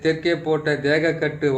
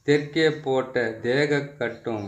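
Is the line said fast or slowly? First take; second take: fast; slowly. First: It is recited quickly. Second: It is recited slowly and carefully. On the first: "இந்த மந்திரத்தை வந்து கொஞ்சம் வேகமாக சொல்லிடுறேன்" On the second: "பொறுமையா சொல்றேன்"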